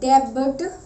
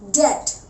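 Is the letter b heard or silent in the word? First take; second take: heard; silent. First: A b sound is heard in the middle. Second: No b sound is heard at all. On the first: The speaker calls it wrong. "No, that is wrong" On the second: The speaker calls it right. "बी के बाद जब भी T आता है ... हमारा बी silent होता है"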